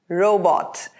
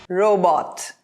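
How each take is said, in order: The two takes are said the same way.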